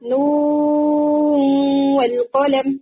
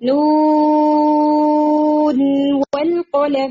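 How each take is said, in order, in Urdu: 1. نون کی آواز بعد والے 'w' میں مل جاتی ہے۔ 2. 'w' سے پہلے نون کی آواز صاف ادا ہوتی ہے۔ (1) "ایسے نہیں پڑھتے" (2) "اس میں بھی اظہار ہو جاتا"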